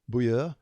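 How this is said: The name is said the French way. "The the French, I think, say Beaulieu"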